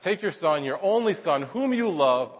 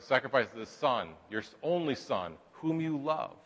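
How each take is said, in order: First: "your", "only" and "whom" hit high and falling; stressed command. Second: "only" and "whom" stressed softly, falling; slow heavy stress. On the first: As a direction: lay down "your only son, whom you love" with weight on each word. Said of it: "And God emphasizes". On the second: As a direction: press "your only son, whom you love" quietly, word by word. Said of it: "look how he lays this down". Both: Shown as a demonstration.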